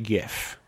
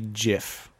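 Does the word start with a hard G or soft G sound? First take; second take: hard G; soft G. First: It begins with a hard G sound. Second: It begins with a soft G sound. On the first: "I would say hard G GIF" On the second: "some people would say soft G GIF"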